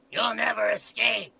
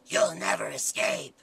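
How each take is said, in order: First: Slow demon shout. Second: Low, slow, whispered demon. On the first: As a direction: yell it as a demon. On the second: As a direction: breathe it out like a demon. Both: Acted. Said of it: "which character is this? This is Demon Five".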